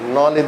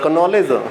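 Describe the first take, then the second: First: The k at the start is silent. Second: The k at the start is pronounced. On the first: The speaker calls it right. "के is silent" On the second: The speaker calls it wrong. "कनॉलेज नहीं होता"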